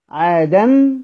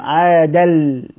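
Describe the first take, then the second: First: The ending is pronounced with an n sound. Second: The ending merges into an l sound. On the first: The speaker calls it wrong. "بدل ما انطق نون" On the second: The speaker calls it right. "انطق لام عادل"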